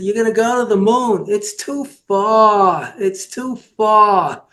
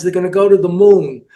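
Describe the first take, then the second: First: Imitated Jewish accent, slightly higher, words drawn out. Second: Said in the usual way. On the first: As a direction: stretch the complaint slowly in a mock Jewish accent. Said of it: "the guy with the Jewish accent".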